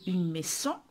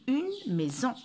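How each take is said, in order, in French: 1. Le s se prononce comme un s sifflant. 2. Le s se prononce comme un z sonore. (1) "Je n'ai pas dit une maison" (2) "mais j'ai dit une maison. J'ai lu Z"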